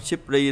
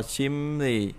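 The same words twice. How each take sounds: First: Simply said "sip-ri", with a p stop; as-spelled reading. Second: Simply said "sim-ni", p turned to m; nasalized reading. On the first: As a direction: keep the p before r in simply. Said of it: "bình thường là đọc simply". (đọc simply thành "síp-ri") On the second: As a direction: close simply's first syllable on m. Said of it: "Mình đọc là simply". (đọc simply thành "sim-ni", âm m) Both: Shown as a demonstration.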